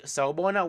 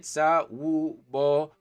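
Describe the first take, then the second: First: Said in the usual way. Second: "sawubona" slowly, sa-wu-bo-na, each syllable held; syllable-by-syllable pronunciation. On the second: Shown as a demonstration. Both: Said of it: "how you spell it".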